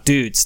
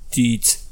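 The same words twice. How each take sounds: First: The word is said with an American Western accent. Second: The word is said with an Australian-sounding accent. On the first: The speaker calls it right. "No, dudes" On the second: The speaker calls it wrong. "Not dudes"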